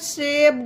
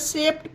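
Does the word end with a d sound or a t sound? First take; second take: d sound; t sound. First: The word ends with a d sound. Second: The word ends with a t sound. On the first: The speaker calls it wrong. "शेप्ड नहीं होगा इसका" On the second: The speaker calls it right. "टा बन गया ना डी का उच्चारण"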